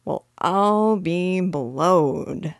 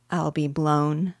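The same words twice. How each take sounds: First: Very slow, drawn-out burglar's amazement; uneducated burglar, flabbergasted, words dragged out; vulgar exclamation. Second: "blown" said neatly, ending in n; prim little correction to "blown"; correct wording. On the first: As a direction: stretch every word in astonishment. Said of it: "once more uttered his vulgar exclamation". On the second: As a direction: say "blown" carefully, in an everyday voice. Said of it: "I'm sure it isn't correct to say". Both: A narrator's reading.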